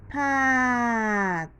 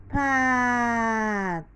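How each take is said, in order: The two takes are said the same way.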